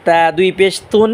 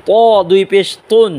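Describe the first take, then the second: First: "তা" and "তুন" with a light, thin t; "তা" recited with an unemphatic, thin t; thin T sound. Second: "ত" and "তুন" with a heavy, full emphatic t; thick T sound. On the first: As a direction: keep the tongue light on "তা দুই পেশ তুন". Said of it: "তা চিকন আওয়াজে পড়ব". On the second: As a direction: thicken the t in "ত দুই পেশ তুন". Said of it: "ত মোটা আওয়াজে পড়ব". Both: Shown as a demonstration.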